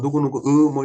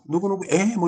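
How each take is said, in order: First: The particle is pronounced as the diphthong 'ui'. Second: The particle is pronounced as the plain vowel 'e'. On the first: The speaker calls it right. "어른들이 뭐, 뭐 누구누구 의 뭐 이렇게 하듯이" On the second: The speaker calls it wrong. "의도 아니고 에라고 그래"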